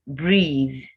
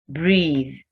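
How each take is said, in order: No difference in how they are said.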